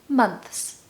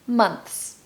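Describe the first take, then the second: The two takes are said the same way.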